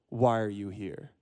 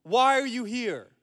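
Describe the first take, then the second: First: Low, slow, softened question; calm, reflective. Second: High, slow sentry's holler; yelling centurion. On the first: Rabbi repeating the guard's question as a daily reminder, calmly. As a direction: ask it slowly and softly, to sink in. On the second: Centurion challenging a stranger at the gate, yelling. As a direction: call it out, stretched and commanding. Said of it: "smacks his spear on the ground and yells". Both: Acted.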